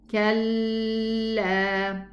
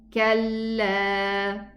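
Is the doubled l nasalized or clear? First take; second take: nasal; clear. First: The doubled l has a nasal hum. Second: The doubled l has no nasal hum. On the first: The speaker calls it wrong. "a ghunna is going to be produced like this" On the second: The speaker calls it right. "just go to the lam sukoon and then move to the lam fatha"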